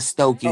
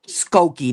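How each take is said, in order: First: The name begins with an S followed by T. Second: The name begins with an S followed by K. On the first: The speaker calls it wrong. "not Stokey" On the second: The speaker calls it right. "my wife said it's called, how you say it? Skokie"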